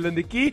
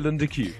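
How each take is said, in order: First: The name is pronounced the Afrikaans way. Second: The name is pronounced the English way. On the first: The speaker is Afrikaans. "So as you Afrikaans is" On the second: The speaker is English. "But if you're English like me, then you'll say"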